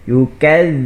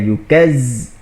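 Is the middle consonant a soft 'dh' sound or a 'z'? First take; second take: dh; z. First: The middle consonant is a soft 'dh' sound. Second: The middle consonant is a hissing 'z' sound. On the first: The speaker calls it right. "huruf zal ini ha, satu penekanan lah" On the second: The speaker calls it wrong. "bukan yukaz"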